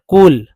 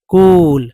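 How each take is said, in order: First: The vowel is kept short. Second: The vowel is drawn out long. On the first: The speaker calls it right. "छोटा उच्चारण" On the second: The speaker calls it wrong. "कुल not कूल"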